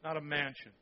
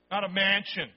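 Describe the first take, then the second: First: Not a mansion said lower and softer; softer echo. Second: Mansion punched, louder; stress on mansion. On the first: Preacher repeating the correction to the congregation, softer. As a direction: repeat it quietly. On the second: Preacher correcting the translation, punching mansion. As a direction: hit the word mansion. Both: Shown as a demonstration.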